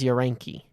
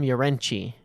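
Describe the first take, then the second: First: The middle consonant is a hard k sound. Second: The middle consonant is a ch sound. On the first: "I've had his name as Urenki" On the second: "The announcer keeps calling him Urenchi. ... Is it a ch sound?"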